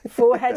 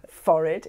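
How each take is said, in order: First: The word is said the American way. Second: The word is said the English way. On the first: "Forehead is American" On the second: "Forehead is English"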